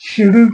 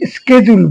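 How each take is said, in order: First: The word begins with an sh sound. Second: The word begins with an sk sound. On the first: This is the British pronunciation. "আমরা British পদ্ধতি অনুসরণ করি" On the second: This is the American pronunciation. "আমেরিকানরা তারা শিডিউলকে স্কেজুল বলে"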